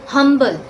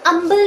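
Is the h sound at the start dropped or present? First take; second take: present; dropped. First: The word starts with a clear h sound. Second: The word starts with a vowel, no h. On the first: The speaker calls it right. "क्या बोला जाता है? हम्बल" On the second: The speaker calls it wrong. "अम्बल नहीं बोला जाता"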